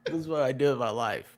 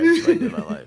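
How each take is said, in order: First: Said in the usual way. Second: High, loud, laughing through the words. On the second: Real, not acted. Cracking up while joking about his hobby, laughing loudly. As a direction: crack up as you repeat it.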